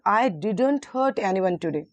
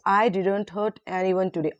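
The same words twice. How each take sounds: First: The stress is on the word didn't. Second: The stress is on the word I.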